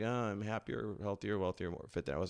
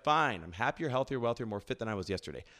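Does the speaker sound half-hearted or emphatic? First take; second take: half-hearted; emphatic. First: It is said half-heartedly, without conviction. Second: It is said emphatically, as if meant.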